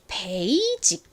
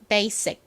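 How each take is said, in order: First: The middle consonant is a j sound. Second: The middle consonant is an s sound. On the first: "한국식으로는 이 S를 시옷 소리로 쓰지 않고 베이직 이렇게 표기를 하고 말을 합니다" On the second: "실제 미국식 영어 발음은 S가 basic, basic 이렇게 스 소리가 납니다"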